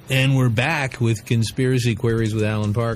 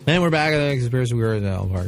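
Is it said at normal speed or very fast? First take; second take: normal speed; very fast. First: It is said at a normal speed. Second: It is said very fast, run together.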